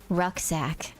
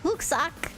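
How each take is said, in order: First: It is pronounced the English way. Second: It is pronounced the German way.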